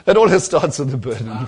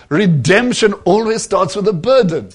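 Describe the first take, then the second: First: Said in the usual way. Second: Burden leaned on, louder, preacher's punch; emphatic repeat. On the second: Shown as a demonstration. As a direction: drive home the word burden.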